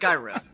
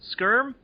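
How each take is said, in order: First: The middle vowel is kept, making two syllables. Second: The middle vowel is dropped, making one syllable. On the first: The speaker calls it right. "No, no, no, Skyrim" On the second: The speaker calls it wrong. "for some reason I went Skirm"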